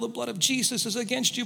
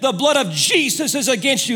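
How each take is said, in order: First: It is said at a quiet, normal volume. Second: It is shouted at full volume.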